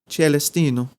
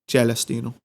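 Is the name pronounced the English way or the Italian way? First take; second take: Italian; Italian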